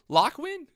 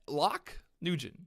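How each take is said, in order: First: The surname is said as one syllable, like 'win'. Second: The surname is said with two syllables, like 'Nugent'. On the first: The speaker calls it right. "Pronounce win" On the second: The speaker calls it wrong. "I feel like I pronounced it right, didn't I?"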